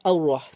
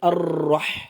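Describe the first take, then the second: First: The r is said with no trill at all. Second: The r is said with an excessive, long trill. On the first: "আর একদমই বাউন্স না দেওয়া এটাও ভুল।" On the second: "অতিরিক্ত বাউন্স খাবে"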